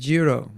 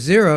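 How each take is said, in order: First: The word begins with a j sound. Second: The word begins with a z sound.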